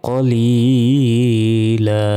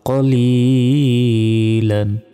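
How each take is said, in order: First: The word ends on a vowel. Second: The word ends with an n sound. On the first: The reader stops at this word. "থামলে একটি জবরের উচ্চারণ এখানে হবে না, তখন হবে কলিলা" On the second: The reading continues without a stop. "দুই জবর"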